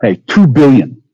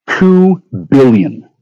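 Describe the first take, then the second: First: Drawn-out, high "two" punched hard; stressed outrage. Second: Very slow, high "two" dragged out; slow disbelief. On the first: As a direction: hit "two" slow and high, disbelieving. Ranting about funding cut. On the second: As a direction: stretch "two" long in disbelief. Repeating the sum in disbelief. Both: Real, not acted.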